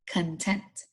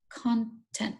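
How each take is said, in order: First: The stress is on the second syllable. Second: The stress is on the first syllable. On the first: The speaker calls it right. "So it's actually content" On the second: The speaker calls it wrong. "So I pronounced it wrong"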